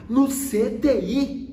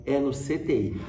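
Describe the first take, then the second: First: High, loud, drawn-out mock disbelief; incredulous echo. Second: Retold news with a light laugh; amused, laughing. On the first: Father hearing it's the ICU, incredulous. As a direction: imitate dad's shocked question, very slow and high. Pai reage incrédulo à notícia. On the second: Son tells dad about the ICU, amused. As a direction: break it to him with a chuckle. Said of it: "eu falava rindo".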